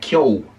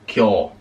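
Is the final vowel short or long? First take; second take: short; long. First: The final vowel is short. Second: The final vowel is lengthened. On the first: The speaker calls it wrong. "no se pronuncia Kyo" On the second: The speaker calls it right. "sino Kyo"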